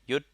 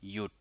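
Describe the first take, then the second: First: The syllable is said with a high tone. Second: The syllable is said with a low tone. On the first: "it would be a high tone" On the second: "low tone"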